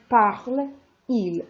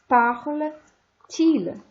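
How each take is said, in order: First: Parle runs straight into il with no t sound. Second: A t sound links parle to il. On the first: The speaker calls it wrong. "that doesn't sound right to a French ear" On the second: The speaker calls it right. "The French ear wants to have a T"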